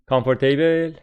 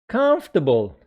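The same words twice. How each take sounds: First: The vowel after the stressed syllable is pronounced. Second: The vowel after the stressed syllable is dropped. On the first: The speaker calls it wrong. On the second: The speaker calls it right.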